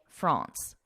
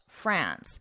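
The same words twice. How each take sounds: First: The word is said with a French pronunciation. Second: The word is said with a nasal English vowel. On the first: It is the name of the race. "in French pronunciation, you would say France" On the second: It is the name of the country. "like how I say it in English"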